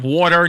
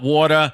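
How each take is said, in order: First: It is said with the R pronounced. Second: It is said New York style, R dropped.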